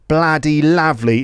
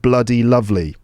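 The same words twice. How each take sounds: First: The 'u' vowels sound like an open 'ah'. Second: The 'u' vowels sound like a neutral 'uh'. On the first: "So uh can sound like ah" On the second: "instead of"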